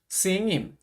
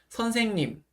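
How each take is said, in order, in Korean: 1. 첫 음절이 줄어들고 빨리 나와요. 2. 모든 음절을 온전히 발음해요. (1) "너무 빠르게 하거나 줄여서 하려고 하지 마시고" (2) "이렇게 말씀해 주셨으면 좋겠습니다"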